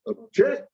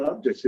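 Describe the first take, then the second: First: "object" stressed on the JECT, pitched up; "object" with a weak start and high, punched JECT; stress on second syllable. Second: "object" stressed on the OB, as the noun; the noun "object", first syllable strong. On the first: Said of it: "it's pronounced ob-, I object". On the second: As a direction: say "object" with the weight up front, OB-ject. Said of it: "Nope, it's not object". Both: Shown as a demonstration.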